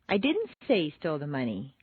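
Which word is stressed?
didn't. The stress is on the word didn't.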